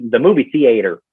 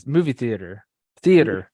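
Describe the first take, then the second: First: "movie theater" with a long AY inside "theater"; Southern "theater". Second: Mumbled Florida accent. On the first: Showing what people call him out on, "theater" said THEE-ay-ter. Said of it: "I say the". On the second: Showing how Floridians say it, mumbled Florida accent. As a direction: run "theater" together in a Florida accent. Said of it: "Florida accent, we just, like, mumble it all together". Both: Shown as a demonstration.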